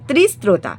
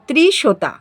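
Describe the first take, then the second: First: The middle of the word has an 'str' cluster. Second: The middle of the word sounds like 'sh'. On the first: The speaker calls it right. "দন্তের শয়তয় রফলা ওকার তয়াকার" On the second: The speaker calls it wrong. "Sorry উচ্চারণটা ভুল করলাম"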